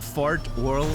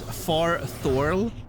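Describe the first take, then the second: First: The syllable break comes after 'fart'. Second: The syllable break comes after 'far'. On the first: "Fart Orl is funnier" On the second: "I'm sure it's Far Thorl"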